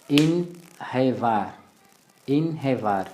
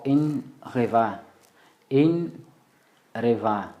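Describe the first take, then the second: First: Inhevar with nasal IN, then H for R; H variant. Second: Inreva drawn out slowly, nasal IN then R; R variant. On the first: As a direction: say inhevar with a breathed H after IN. (inhevar kwa puani, H badala ya R) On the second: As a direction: stretch inreva, with R after the nasal IN. (inreva polepole, kwa sauti ya R) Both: Shown as a demonstration. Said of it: "ukazungumza R au ukatele H".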